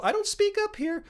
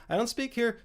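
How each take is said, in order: First: Squeaky, very high pitched; very high demo voice. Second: Pitched up above normal speech; a step up high, showing another register; higher demo voice. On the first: Showing viewers a voice he never uses, very high. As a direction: jump way up high to show what he doesn't do. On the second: Showing viewers a raised register he doesn't use, higher. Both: Shown as a demonstration.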